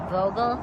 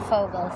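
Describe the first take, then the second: First: The name begins with a V sound. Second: The name begins with an F sound. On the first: The speaker calls it wrong. "pronounced wrong in English because they pronounce it Vogel" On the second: The speaker calls it right. "the correct Fogel sound by changing the V's to an F"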